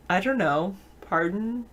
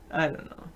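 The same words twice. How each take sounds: First: "I don't know, pardon?" with a rising, asking tune; questioning tune. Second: "I don't know." stress on "I", falling at the end; flat statement. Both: Shown as a demonstration. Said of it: "It is better to say".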